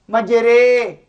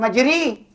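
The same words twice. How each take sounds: First: The vowel sits between a and i. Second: The vowel is a plain, pure vowel. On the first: The speaker calls it right. "Seperti kata imalah antara ya dengan dengan alif" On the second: The speaker calls it wrong.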